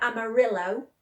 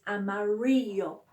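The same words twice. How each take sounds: First: "amarillo" as "ama-RILL-o", L sounded; "amarillo" with a clear English L; English L reading. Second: "amarillo" as "ama-REE-yo"; "amarillo", stretched "ree", ending in "yo"; double L as Y. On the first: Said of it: "it looks like amarillo". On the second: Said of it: "Y, yo at the end". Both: Shown as a demonstration.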